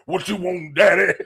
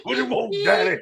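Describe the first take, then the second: First: Mimicking an old Southern bus driver. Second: Squeaky high mocking imitation; old Southern voice, high. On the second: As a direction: repeat it pitched way up, laughing.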